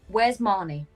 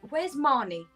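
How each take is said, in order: First: It is said in a natural, serious voice. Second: It is said in a flustered character voice. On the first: The speaker calls it wrong. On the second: The speaker calls it right.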